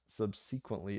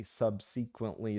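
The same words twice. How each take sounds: First: Subsequently with stress on SEE, sub-SEE-quently; wrong pronunciation. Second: Subsequently said slowly, syllable by syllable; corrected pronunciation. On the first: Host reading a viewer's complaint, subsequently as sub-SEE-quently. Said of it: "is not pronounced subsequently". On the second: Host reading a viewer's correction, slowly sounding out subsequently. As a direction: sound out subsequently in slow pieces. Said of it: "is pronounced subsequently". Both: Shown as a demonstration.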